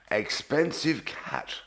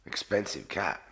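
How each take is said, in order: First: Expensive drawn out slow and higher, stressed. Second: Said in the usual way. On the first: Shown as a demonstration. Repeating the cat's name, slow with stress on Expensive. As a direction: lean slowly on Expensive.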